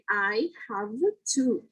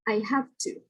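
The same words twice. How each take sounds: First: It is slow, with a voiced v in have. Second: It is quick, with a voiceless f in have. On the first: "When you pronounce it slowly" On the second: "this V in have will change to a voiceless F"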